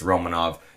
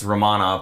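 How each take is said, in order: First: The stress is on the first syllable. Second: The stress is on the second syllable. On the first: "put the first capital O if it's Romanov" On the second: "put a capital A if it's Romanov"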